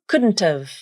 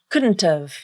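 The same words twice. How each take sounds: First: The T is a full, clearly released T. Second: The T is a full, clearly released T.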